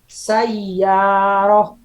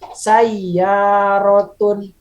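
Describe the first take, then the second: First: The word ends in a short 'ah' sound. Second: The word ends in a full 'atun' sound.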